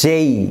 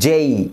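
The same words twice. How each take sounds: No difference in how they are said.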